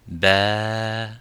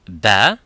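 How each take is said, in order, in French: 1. La voyelle est tenue pendant environ deux temps. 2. La voyelle est tenue brièvement. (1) "ça donne ba" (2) "si on prolonge ba"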